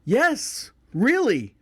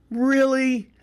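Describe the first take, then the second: First: High-pitched emphatic "Yes, really"; insistent confirmation. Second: High-pitched, sceptical "Really?"; mock disbelief. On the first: Retold or imitated. Uncle answering his doubting family, emphatically insistent. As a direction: insist on it, each word peaking high then dropping. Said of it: "like, going". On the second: Family doubting his Thanksgiving story, imitated in high-pitched disbelief. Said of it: "looked at me like".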